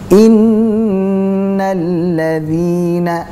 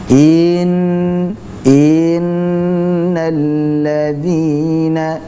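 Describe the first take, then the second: First: The first vowel is short, going straight into n. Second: The first vowel is stretched out long. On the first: The speaker calls it right. "Harusnya innal ladzina, i langsung masuk ke nun" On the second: The speaker calls it wrong. "menambah kadar harokat pada i ... contoh bacaan yang salah"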